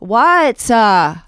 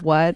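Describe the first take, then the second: First: It is drawn out with an extra syllable. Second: It is said plainly as one syllable.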